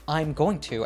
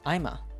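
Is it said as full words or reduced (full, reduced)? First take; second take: full; reduced. First: All the words are said fully and separately. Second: The words are squeezed into one short form. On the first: "she says I'm going to as I'ma" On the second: "she says I'm going to as I'ma"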